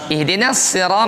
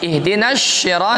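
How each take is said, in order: First: The word begins with an 's' sound. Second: The word begins with an 'sh' sound. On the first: The speaker calls it right. "Kalau sin masih diperbolehkan" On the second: The speaker calls it wrong. "shin tidak boleh"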